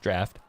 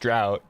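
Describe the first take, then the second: First: The vowel sounds like 'ah' in father. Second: The vowel sounds like 'ow' in cow. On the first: The speaker calls it right. "but no, it's draft" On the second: The speaker calls it wrong. "You you you would think it's pronounced drought"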